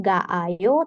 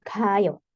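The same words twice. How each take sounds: First: "ga ayo" with both A vowels sounded separately; uncontracted form. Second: "kayo" with just one A; contracted form. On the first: Teacher showing what not to say, "ga ayo" with two separate A's. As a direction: say "ga ayo" slowly, the doubled A kept apart. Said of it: "kita bisa sederhanakan jadi kayo". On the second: Teacher showing the simplified form, "kayo" with one A. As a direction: merge the vowels into a single A in "kayo". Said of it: "Jadi A-nya satu aja". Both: Shown as a demonstration.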